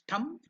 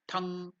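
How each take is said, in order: First: The word ends cleanly with closed lips. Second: The word ends in a lingering nasal hum. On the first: "When you are ending it, it becomes thum" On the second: "If you don't end it and keep it in the nose, it becomes tongue"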